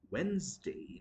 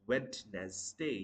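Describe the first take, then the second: First: Wednesday as "WENZ-day"; two syllables in Wednesday, first d silent; correct pronunciation. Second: Wednesday slowly split "WED-nes-day"; split syllables. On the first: Teacher modelling it in a sentence, Wednesday as "WENZ-day". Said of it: "the correct pronunciation would be". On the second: Teacher showing the mistake, Wednesday slowly split. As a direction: chop Wednesday into three parts, slow. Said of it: "You cannot split the word like this". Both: Shown as a demonstration.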